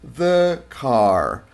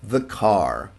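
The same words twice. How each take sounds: First: A pause separates the two words. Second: The two words are joined with no pause. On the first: The speaker calls it wrong. "no hablamos así" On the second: The speaker calls it right. "Yo no voy a hacer esa pausa para separarlos"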